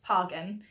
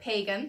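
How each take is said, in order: First: Its first part sounds like Haagen. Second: Its first part does not sound like Haagen. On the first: The speaker calls it right. "It's pagan um, because it's like Haagen-Dazs" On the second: The speaker calls it wrong. "a lot of people pronounce it like pagan, but they're wrong"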